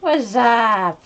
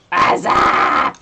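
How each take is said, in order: First: High goofy greeting; silly cartoon greeting voice. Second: Hoarse whisper-shout greeting; loud breathy whisper. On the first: Greeting chat in funny voice. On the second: Pretend.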